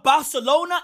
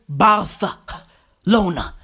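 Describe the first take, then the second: First: The 'c' is pronounced as a plain 's'. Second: The 'c' is pronounced as a lisped 'th'. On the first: "instead of Barcelona" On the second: "it's Barcelona"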